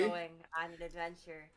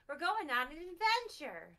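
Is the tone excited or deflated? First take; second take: deflated; excited. First: It is said with little excitement. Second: It is shouted with excitement.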